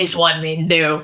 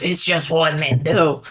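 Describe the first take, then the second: First: Understated swaggering man; a knowing bro mumble; a touch of macho; mock macho guy. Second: Lightly voiced swaggering man; a hint of macho bravado; mock macho guy. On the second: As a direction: say it like a knowing dude. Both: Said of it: "When you say it like that".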